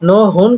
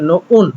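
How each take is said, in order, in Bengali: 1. স্বরবর্ণের আগে h ধ্বনি উচ্চারিত হয়। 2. স্বরবর্ণের আগে h ধ্বনি বাদ পড়ে। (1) "হওয়ার কথা ছিল" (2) "কিন্তু হচ্ছে"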